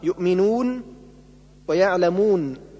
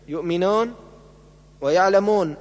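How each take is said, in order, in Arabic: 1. الشفتان في الواو الطويلة مستديرتان تماماً. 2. الواو الطويلة نصف مستديرة، تميل نحو الألف. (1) "بضم الشفتين وإبرازهما" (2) "بالواو ما بين الواو والألف"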